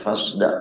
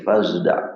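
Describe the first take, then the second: First: The s sound is a plain s. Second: The s sound is blended toward a z. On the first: The speaker calls it wrong. "Ini bukan fasda'" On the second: The speaker calls it right. "dibacanya adalah dengan ismam"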